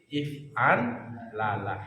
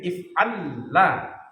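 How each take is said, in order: First: The two L sounds are said separately. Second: The two L sounds are merged into one. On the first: The speaker calls it right. "tapi dibaca menjadi if'an lala" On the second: The speaker calls it wrong. "Tidak dibaca menjadi if'an la"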